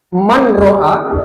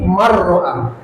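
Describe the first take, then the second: First: The n is pronounced separately before the r. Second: The n merges into a doubled r sound. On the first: This is how it is said in ordinary Arabic speech. The speaker calls it wrong. "Jadi tidak dibaca man ro'a" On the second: This follows the Quran recitation rule of merging. The speaker calls it right. "tapi marro'a"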